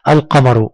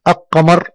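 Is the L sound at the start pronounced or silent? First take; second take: pronounced; silent. First: The L sound after the first vowel is pronounced. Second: The L sound after the first vowel is silent. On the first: The speaker calls it right. "هنا أنتقل من حرف الألف إلى حرف اللام" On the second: The speaker calls it wrong. "إذا قلت كلمة القمر خطأ"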